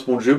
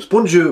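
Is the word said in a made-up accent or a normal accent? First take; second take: normal; made-up. First: It is said in a normal French accent. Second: It is said in an invented foreign-sounding accent.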